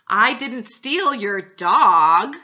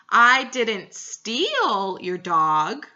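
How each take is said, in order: First: The word "dog" carries the stress. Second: The word "steal" carries the stress. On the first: Something else was taken. "but I may have stole your cat" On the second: It was only borrowed. "emphasizing the word steal"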